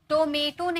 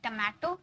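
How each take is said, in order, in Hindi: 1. पहले अक्षर में लंबा 'oh' स्वर है। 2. पहले अक्षर में छोटा 'uh' स्वर है।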